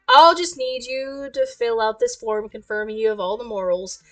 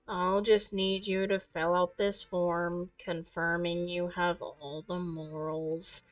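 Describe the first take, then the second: First: It is said in a normal, varied voice. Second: It is said in a dull, flat monotone.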